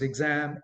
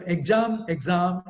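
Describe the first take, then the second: First: EXAM said "ig-zam", open short 'a'; correct pronunciation. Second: EXAM said "eg-jaam", "eg-zaam"; wrong pronunciation. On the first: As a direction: say EXAM as "ig-ZAM", vowel as in cat. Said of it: "It is exam". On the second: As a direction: mispronounce EXAM with a long 'aa'. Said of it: "is a wrong pronunciation". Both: Shown as a demonstration.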